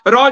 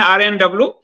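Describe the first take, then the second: First: The name is said as one short word. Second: The name is spelled out letter by letter. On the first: This is the common everyday way of saying it. "रॉ जिसको हम लोग बोलते हैं" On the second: This is the actual official way of saying it. "असली में उसका आरएनडब्ल्यू ही उच्चारण है"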